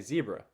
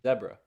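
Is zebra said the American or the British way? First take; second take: American; British. First: Zebra is said in a North American accent. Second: Zebra is said in a British accent. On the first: "they don't say zebra" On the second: "What do they say? zebra"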